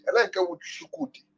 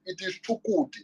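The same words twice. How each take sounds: First: Mock the sh in Shukwudi; mispronounced name. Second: Chukwudi with a hard ch, Chuk-wu-di; correct pronunciation. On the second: Correcting a friend who says Shukwudi, hard ch. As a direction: say Chukwudi with a clear ch sound. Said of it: "your name be Shukwudi". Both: Shown as a demonstration.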